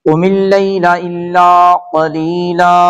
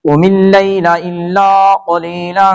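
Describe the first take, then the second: First: It stops after qalila, ending on a long a. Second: It runs on, linking the final n into nisfahu. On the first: "وقف کریں گے تو اس طرح پڑھیں گے" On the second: "جب نہیں وقف کریں گے تو اس طرح پڑھیں گے"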